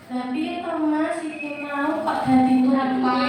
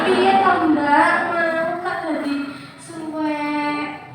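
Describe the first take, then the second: First: Soft reproach. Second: Slow, sing-song "Piye to" rising at the end; drawn-out reproach. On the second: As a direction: stretch out a blaming question. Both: Shown as a demonstration. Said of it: "Beda ya, Bu?".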